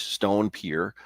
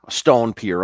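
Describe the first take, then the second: First: Said in the usual way. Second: "stone" said louder, correcting "brick"; stress on stone. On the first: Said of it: "I'm sorry, a t". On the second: Real, not acted. Guide correcting himself, stressing "stone" over "brick". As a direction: hit "stone" firmly to fix the slip. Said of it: "brick pier here".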